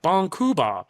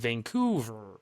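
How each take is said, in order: First: It is said with Japanese syllable sounds. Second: It is said with English sounds. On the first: The speaker calls it right. "But if I was like" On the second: The speaker calls it wrong. "like it gets all weird"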